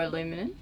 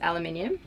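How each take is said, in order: First: It is said in the American way. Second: It is said in a non-American way.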